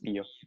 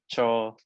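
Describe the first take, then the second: First: The name begins with a t sound. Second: The name begins with a ch sound. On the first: This is how the name's owner says it. "for me, I pronounce it as Tio" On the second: This is how other people say the name. "a lot of people pronounce it as Tio or Cho"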